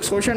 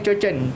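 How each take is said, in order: First: The word is said with 'sh' sounds. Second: The word is said with 'ch' sounds. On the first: The speaker calls it right. "ये लोग शोषण नहीं बोलते" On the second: The speaker calls it wrong. "उच्चारण नहीं आते, चोचन हुआ है"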